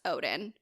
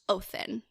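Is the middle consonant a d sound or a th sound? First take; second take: d sound; th sound. First: The middle consonant is a plain d sound. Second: The middle consonant is a soft th sound. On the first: This is the common Western way. "we all kind of in like the West know him as Odin" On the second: This is the original Icelandic way. "technically pronounced Othin with the Icelandic pronunciation"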